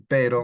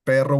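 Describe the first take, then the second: First: Pero with a single quick tapped R. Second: Perro with a long trilled double R; rolled R. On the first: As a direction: tap the r in pero once. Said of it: "perro is not the same as pero". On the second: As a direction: roll the rr in perro. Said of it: "when you have two R's". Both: Shown as a demonstration.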